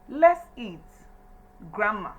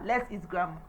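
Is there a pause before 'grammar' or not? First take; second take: pause; no pause. First: There is a pause before grammar. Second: It is said without a pause before grammar.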